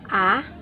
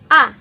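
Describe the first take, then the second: First: It is said with the second tone. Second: It is said with the fourth tone. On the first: "第二声 second tone A" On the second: "第四声 A"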